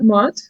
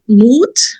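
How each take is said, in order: First: The vowel is a short o sound. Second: The vowel is a long oo sound. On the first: The speaker calls it wrong. "not mot" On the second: The speaker calls it right. "This word moot, not mot, moot means courage in Norwegian"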